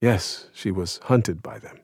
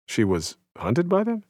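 First: "Yes, she was hunted by them." slow and falling, weight on "hunted"; slow grave confirmation. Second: "She was hunted by them?" rising high on "by them" in disbelief; incredulous question. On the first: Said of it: "I asked". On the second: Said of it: "wanting to make sure I had heard correctly". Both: Retold or imitated.

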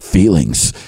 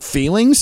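First: FEELINGS dropped low with a falling end; answering. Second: FEELINGS lifted high in a questioning rise. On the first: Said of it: "And they're like". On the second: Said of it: "And I'm like". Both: Acted.

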